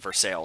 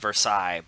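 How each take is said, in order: First: The name is said the Pennsylvania way. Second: The name is said the French way. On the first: This is how the local town is called. "but called Versailles" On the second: This is how the name is written. "it's spelled Versailles"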